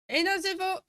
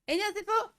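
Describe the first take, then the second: First: It is said in a normal voice. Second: It is said in a higher, girlish voice.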